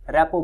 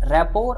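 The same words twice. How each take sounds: First: "रेपो" ending on an open O, no R; variant with silent ending. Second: "रैपोर" with the final R sounded; variant with R. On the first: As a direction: finish "रेपो" on "po" without any R. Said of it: "कुछ लोग रेपो बोलते हैं". ("रेपो" के अंत में खुला ओ, र नहीं) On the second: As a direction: end "रैपोर" on a clear "por". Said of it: "कुछ लोग". ("रैपोर" के अंत में र का साफ़ उच्चारण) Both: Shown as a demonstration.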